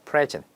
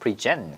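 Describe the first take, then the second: First: The stress is on the first syllable. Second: The stress is on the second syllable. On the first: It is the noun or adjective meaning gift or current. "명사랑 형용사로 쓰이면 액센이 앞에 있어요" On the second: It is the verb meaning to offer or introduce. "이게 동사일 때는 액센이 뒤에 있습니다"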